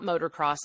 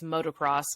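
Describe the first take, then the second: First: The first part sounds like 'motor', with an r. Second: The first part sounds like 'moto', without an r. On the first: The speaker calls it wrong. "it's not motocross" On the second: The speaker calls it right. "it's motocross"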